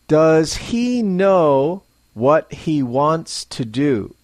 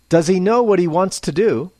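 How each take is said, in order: First: Each word is said separately and fully. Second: Some words are blended together smoothly. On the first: The speaker calls it wrong. "spoken unnaturally, as a learner might speak it" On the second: The speaker calls it right. "let's blend together some of the words for a more natural sound"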